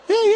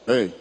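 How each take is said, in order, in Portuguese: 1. A palavra é dita em tom agudo. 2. A palavra é dita em tom grave. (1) "É agudo" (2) "É um som grave"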